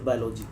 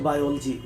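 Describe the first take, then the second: First: Biology said as "bai-LO-jee"; students' mispronunciation. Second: Biology said as "bai-OL-jee"; correct pronunciation. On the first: Interviewer asking why students say it so, biology mispronounced as bai-lo-jee. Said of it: "Why the most of students pronounce it". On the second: Interviewer naming the form students avoid, biology pronounced bai-ol-jee. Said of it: "they are not, uh, in the habit of". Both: Shown as a demonstration.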